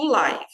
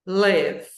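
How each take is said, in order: First: Live with a long I sound like "lie". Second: Live said like "lev" with an E sound; short e live. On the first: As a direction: say live as in ao vivo, with an I. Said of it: "ao vivo eu digo live". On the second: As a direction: stress the verb live as "lev". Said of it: "eu digo". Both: Shown as a demonstration.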